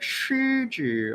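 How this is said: It is said with heavy, exaggerated articulation. "they'll be like"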